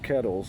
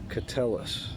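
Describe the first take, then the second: First: The name sounds like 'kettles', two syllables. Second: The name sounds like 'ca-tel-lis', three syllables. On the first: The speaker calls it wrong. "I was pronouncing it wrong. It's it's not Kettles" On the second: The speaker calls it right. "it's Catellis"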